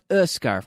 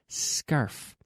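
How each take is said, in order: First: An extra vowel sound comes before the word. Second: The word starts directly with the s sound. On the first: The speaker calls it wrong. "there's no E, not a scarf" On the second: The speaker calls it right. "No, no"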